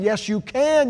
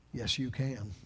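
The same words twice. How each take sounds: First: "yes, you can" much louder and higher; "yes, you can" as a rousing pulpit cry; shouted affirmation. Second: "yes, you can" said low and much softer; "yes, you can" softly, almost to himself; quiet affirmation. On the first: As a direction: belt "yes, you can" to the back row. Loud take after the quiet one. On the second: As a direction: murmur "yes, you can" as a hushed promise. Quiet take before the loud repeats. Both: Shown as a demonstration.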